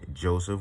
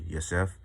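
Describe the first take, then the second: First: The name begins with a J sound. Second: The name begins with a Y sound. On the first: This is the English form of the name. The speaker calls it wrong. "these are saying wrong because I'm in the English tongue" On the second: This is the Hebrew form of the name. The speaker calls it right. "the J's are kind of like a Y in Hebrew"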